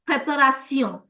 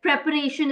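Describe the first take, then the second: First: It is said with French pronunciation. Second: It is said with English pronunciation. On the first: "In French, it's the same, same spelling, ... but we call it préparation" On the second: "preparation is an English word"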